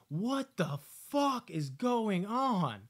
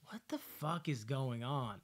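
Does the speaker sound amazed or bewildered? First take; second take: amazed; bewildered. First: It sounds amazed and thrilled. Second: It sounds bewildered and confused. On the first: The chaos is exciting and enjoyable. "When I'm watching Last Shift, I was like" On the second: The chaos is confusing and hard to follow. "When I was watching Malum, ... I was like"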